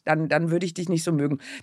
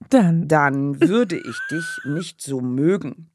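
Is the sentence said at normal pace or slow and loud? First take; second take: normal; slow and loud. First: It is said at a normal pace and volume. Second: It is said more slowly and more loudly.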